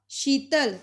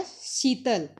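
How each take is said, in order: First: शीतल opening on sh; sh form. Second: शीतल said as seetal; Punjabi s form. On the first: Teacher giving the Hindi word, शीतल with sh. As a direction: say शीतल with hushing sh. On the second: Teacher showing the Punjabi form, शीतल with s. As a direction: open शीतल on plain s. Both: Shown as a demonstration. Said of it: "Punjabi च हो जाएगा".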